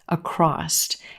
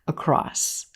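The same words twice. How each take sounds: First: The word ends with an added t sound. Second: The word ends with a plain s sound. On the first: The speaker calls it wrong. "adding a t, t, t sound at the end of this word" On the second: The speaker calls it right. "This word ends in s"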